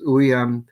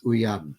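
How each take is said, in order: First: U-yam, first syllable louder and stressed; penultimate stress. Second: U-YAM, unstressed first syllable; no penultimate accent. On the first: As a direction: say "uyam" with the accent on U. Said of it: "the accent is uyam". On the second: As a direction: say "uyam" with stress moved to the final YAM. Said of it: "which lose Pinault accent". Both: Shown as a demonstration.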